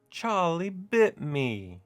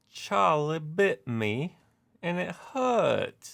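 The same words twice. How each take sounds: First: Slow, high mock British accent with the stress on bit; the meme line again in a bad British accent, drawn out; terrible British accent. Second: Hammed-up British accent, high and slow; terrible British accent. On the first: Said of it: "my terrible British accent or English accent". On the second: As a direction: quote the viral video in a bad British accent, pitched up and drawn out. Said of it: "I apologize for my terrible British accent".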